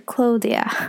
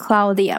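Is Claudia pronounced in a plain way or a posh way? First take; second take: posh; plain. First: Claudia is said in a posh, refined way. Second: Claudia is said in a plain, everyday way. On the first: This is how aristocrats supposedly say it. "贵族的发音是Claudia" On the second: This is how ordinary people say it. "你们那个就是平民的发音"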